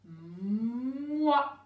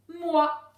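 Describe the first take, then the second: First: "moi" with a long hummed m rising into wa; sounded-out syllable. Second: Said in the usual way. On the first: Shown as a demonstration. Teacher showing the first sound, "moi" slowly stretched out. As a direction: hold the m of "moi", then swell into the vowel. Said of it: "on entend en premier le m". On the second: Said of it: "Prochaine syllabe".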